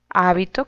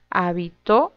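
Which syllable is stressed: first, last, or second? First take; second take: first; last. First: The stress is on the first syllable. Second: The stress is on the last syllable. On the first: A garment, such as a religious robe. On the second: Someone lived somewhere in the past.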